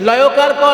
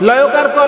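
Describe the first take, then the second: Both takes have the same delivery.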